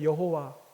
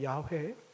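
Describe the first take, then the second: First: The name is said with three syllables, Yeho-wa. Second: The name is said with two syllables, Yah-weh. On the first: This is the common way people say the name. The speaker calls it wrong. "우리가 흔히 여호와라고 하지 않습니까?" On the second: This is the more accurate form of the name. The speaker calls it right. "좀 더 정확한 발음은 야훼입니다"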